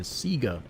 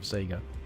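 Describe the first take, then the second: First: The word has the local Australian pronunciation. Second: The word has the official brand pronunciation. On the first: The speaker calls it wrong. "at the time in Australia, we just called it Sega" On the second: The speaker calls it right. "actual proper pronunciation"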